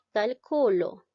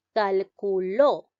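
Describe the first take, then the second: First: "calculo" said cal-CU-lo, falling after CU; deliberate calculo, strong middle syllable and light final lo; stress on middle CU. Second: "calculó" slow and louder, landing on LÓ; deliberate "calculó" with the weight on final ló; stress on final LÓ. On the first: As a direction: put the weight on "cu" in calculo. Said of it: "recae en la sílaba". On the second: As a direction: sound out cal-cu-LÓ, punching the last syllable. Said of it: "En la sílaba lo". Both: Shown as a demonstration.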